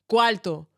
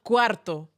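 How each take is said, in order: First: It is said with a Dominican pronunciation. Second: It is said with a standard Spanish pronunciation. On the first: The word means money. The speaker calls it right. "Money in Dominican" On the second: The word means room. The speaker calls it wrong. "not cuarto. ... That means room"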